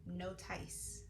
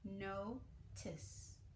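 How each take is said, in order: First: The second vowel is a long I, like ice. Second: The second vowel is a short I, like miss. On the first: The speaker calls it wrong. "the E at the end being silent and making the I say its name. So let's try that" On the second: The speaker calls it right. "instead of the long I sound, we can make the I sound... let's try the soft C"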